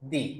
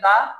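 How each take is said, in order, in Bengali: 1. শব্দটি একটি 'ee' স্বরধ্বনি দিয়ে শেষ হয়। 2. শব্দটি একটি ছোট 'uh' স্বরধ্বনি দিয়ে শেষ হয়। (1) "অ্যাপেল বলার সময় আমার উচ্চারণ হবে দি" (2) "ম্যাঙ্গো বলার সময় উচ্চারণ হবে দা"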